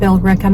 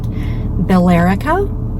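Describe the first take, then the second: First: The name is said the local New England way. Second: The name is said the non-local, outsider way.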